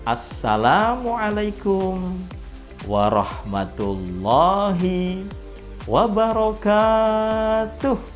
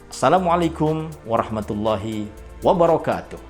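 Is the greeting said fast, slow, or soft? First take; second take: slow; fast. First: The greeting is said slowly and drawn out. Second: The greeting is said quickly and briskly. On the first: It suits young children. "kecepatannya itu diperlambat" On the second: It suits teenagers and young adults. "mungkin bisa lebih cepat"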